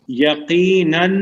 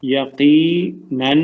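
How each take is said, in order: First: یقیناً drawn out slowly, rising; slow emphatic gloss. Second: یقیناً stretched very slowly, falling; very slow falling gloss. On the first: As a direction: stretch یقیناً to stress it. (یقیناً کو کھینچ کر زور سے) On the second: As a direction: draw یقیناً out and let it fall. (یقیناً بہت آہستہ، اترتی آواز میں) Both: Shown as a demonstration. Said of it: "اس کا معنی کیا ہوگا؟".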